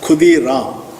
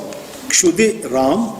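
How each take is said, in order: First: The name starts with a 'kh' sound. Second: The name starts with a 'ksh' sound. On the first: "Bengalis normally pronounce Ksha as Kha"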